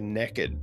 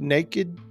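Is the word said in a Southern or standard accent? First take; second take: Southern; standard. First: The word is said in a Southern accent. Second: The word is said in a standard accent. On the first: "somebody from the South say naked" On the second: "there's the word naked"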